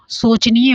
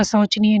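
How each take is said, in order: First: शोचनीय with "o", "soch-niya"; plain o at the start of शोचनीय; correct vowel. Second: शोचनीय with "au", "sauch-niya"; wrong vowel. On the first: Teacher telling students the right spelling, correct vowel. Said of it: "शोचनीय होगा". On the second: Teacher rejecting the misspelling, wrong vowel. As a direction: open au at the start of शोचनीय. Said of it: "शोचनीय नहीं". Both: Shown as a demonstration.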